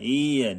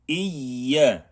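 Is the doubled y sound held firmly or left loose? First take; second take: loose; firm. First: The doubled y sound is loose and weak. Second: The doubled y sound is pressed and held firmly. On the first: The speaker calls it wrong. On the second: The speaker calls it right.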